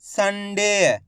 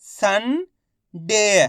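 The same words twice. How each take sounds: First: Sunday joined, long "डे" falling; blended whole word. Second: Sunday in two parts, "सं" rising, pause, long "डे"; very slowly sound out Sunday piece by piece; split into syllables. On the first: Teacher answering what it makes, Sunday blended together. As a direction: say Sunday as one word without a break. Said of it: "मिलके क्या बनेगा". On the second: Teacher breaking Sunday down for learners, syllable by syllable. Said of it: "इनको आपस में मिला के पढ़ना है". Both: Shown as a demonstration.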